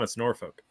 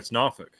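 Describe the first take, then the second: First: It uses an outsider's pronunciation of the name. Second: It uses the local pronunciation of the name. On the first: The speaker is from out of town. "if you're from out of town" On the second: The speaker is from the town. "if you were born here"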